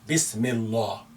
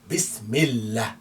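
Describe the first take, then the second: First: The l sound is heavy and dark. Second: The l sound is light and thin. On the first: The speaker calls it wrong. "Don't say Bismillah" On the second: The speaker calls it right. "make it light because we have kasra before it"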